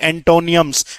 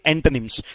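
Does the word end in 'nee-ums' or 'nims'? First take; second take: nee-ums; nims. First: The ending has an extra vowel, 'nee-ums'. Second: The ending is short, 'nims', without extra vowel. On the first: The speaker calls it wrong. "एंटोनियम्स नहीं, ओ अभी भी silent है" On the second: The speaker calls it right. "आप कहेंगे एंटोनिम्स"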